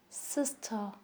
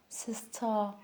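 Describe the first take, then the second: Both takes have the same delivery.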